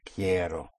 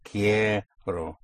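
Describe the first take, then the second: First: "quiero" joined up, softer, stressed on KIE; stressed first syllable. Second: "Quiero" split, KIE held long; push down, surface. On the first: Teacher repeating the verb for students, "quiero" soft and unbroken, KIE stressed. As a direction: say "quiero" in one soft, low piece, weight on KIE. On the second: Teacher demonstrating the push to students, "Quiero" stretched on KIE. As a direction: hold KIE, then let RO follow in "Quiero". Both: Shown as a demonstration. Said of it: "After you push down, you come up on O".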